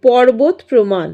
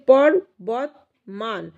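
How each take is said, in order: First: Said in the usual way. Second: পর্বত said slowly, each syllable closed, ending on a rise; syllable demo. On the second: Shown as a demonstration. Teacher shows students the closed syllable, slow and clear. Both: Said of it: "দেখো উচ্চারণটা এখন করছি পর্বত প্রমাণ".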